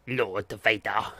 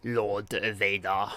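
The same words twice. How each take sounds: First: Lightly voiced slow Emperor, barely changed; a hint of a sinister old emperor; Emperor impression. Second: Slow, lower attempt at the Emperor; a faint sinister Emperor, drawn out; Emperor impression. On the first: Streamer attempting an Emperor voice, slow and faint. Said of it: "I can't do the Emperor accent very well". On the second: Streamer retrying the Emperor voice, slow and low. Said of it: "Nah, I can't do it".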